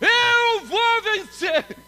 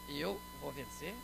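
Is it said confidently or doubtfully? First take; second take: confidently; doubtfully. First: It is shouted with confidence. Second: It is said with doubt, as a question.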